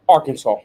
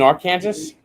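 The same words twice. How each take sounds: First: The final s is silent. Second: The final s is pronounced.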